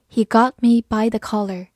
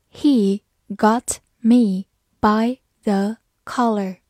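First: Said in the usual way. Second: Slow, careful sentence read. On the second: Shown as a demonstration. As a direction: read it slowly for learners. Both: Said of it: "slow then normal reading".

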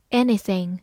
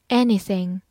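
No difference in how they are said.

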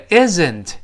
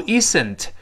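First: "isn't" with the s buzzed as z; voiced z. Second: "isn't" with a hissed s in the middle; wrong voiceless s. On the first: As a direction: say "isn't" as "izzent". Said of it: "这个s要发z这个声音". (正确示范：isn't 中间发浊音 z) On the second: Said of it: "中间不要读". (错误示范：isn't 中间发清音 s) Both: Shown as a demonstration.

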